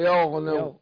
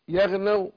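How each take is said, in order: First: The first 'ya' sound is heavy and thick. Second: The first 'ya' sound is thin and light. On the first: The speaker calls it wrong. "ولا يغنوا" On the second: The speaker calls it right. "قل يغنوا ... الياء مرقق"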